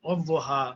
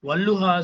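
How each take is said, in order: First: The middle consonant is a doubled heavy d. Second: The middle consonant is a doubled l sound.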